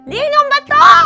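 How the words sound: It is said as if being tickled.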